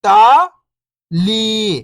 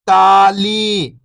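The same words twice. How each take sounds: First: First syllable lifting, pause, second falling. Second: Whole word, level then falling at the end; syllables blended. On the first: Teacher breaking a word down for beginning readers, syllable by syllable. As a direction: sound out each syllable alone, long and separated. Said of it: "एक अक्षर का उच्चारण करके". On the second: Teacher showing beginners the joined word, syllables blended. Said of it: "इनको आपस में लाके पढ़ना है". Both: Shown as a demonstration.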